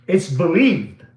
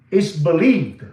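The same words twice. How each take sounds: The two takes are said the same way.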